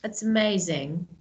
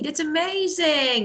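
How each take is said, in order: First: It is said flatly, without interest. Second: It is said with lively, excited interest.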